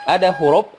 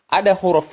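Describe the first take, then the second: Both takes have the same delivery.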